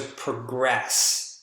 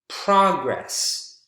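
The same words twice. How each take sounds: First: The stress is on the second syllable. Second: The stress is on the first syllable. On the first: It is a verb meaning to improve. "second syllable is the strongest in verbs" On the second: It is a noun naming an improvement. "first syllable is the strongest in nouns"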